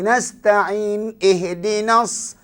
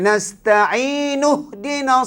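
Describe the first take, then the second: First: There is a stop between the two words. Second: The two words are joined without a stop. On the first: The speaker calls it wrong. "Dia berhenti nasta'in ihdinas. Tak boleh" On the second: The speaker calls it right.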